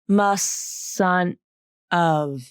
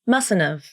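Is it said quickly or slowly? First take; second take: slowly; quickly. First: It is said slowly with a vowel before the N. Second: It is said quickly without a vowel before the N.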